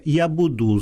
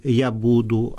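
First: Я буду stressed on the last syllable, я бу-ДУ, as sung in songs; song-style wrong stress. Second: Я буду stressed on the first syllable, я БУ-ду; correct literary stress. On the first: Teacher showing the wrong song stress, я буду with ДУ stressed. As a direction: say я буду with the weight on ДУ, like a pop lyric. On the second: Teacher showing the correct stress, я буду with БУ stressed. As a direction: say я буду with the weight on БУ, the proper way. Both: Shown as a demonstration. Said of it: "замість".

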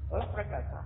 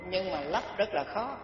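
First: Softer repeat of lấp rất là khó; quiet echo. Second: Said in the usual way. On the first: Shown as a demonstration. Repeating the warning to the listeners, softer. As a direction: drop the voice and repeat it.

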